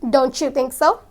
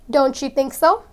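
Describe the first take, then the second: The two takes are said the same way.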